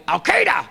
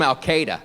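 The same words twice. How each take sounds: First: High, harsh bark of a word; barked name. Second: Said in the usual way. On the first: Retold or imitated. Comic mimicking how the president says it, high bark. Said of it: "It's like a dog barking". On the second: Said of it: "He still calls them".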